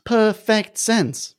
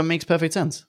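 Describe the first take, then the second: First: PERFECT SENSE drawn out slowly and pitched high; emphatic repeat. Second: Said in the usual way. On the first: Real, not acted. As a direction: stretch each word of "Perfect sense", high and slow.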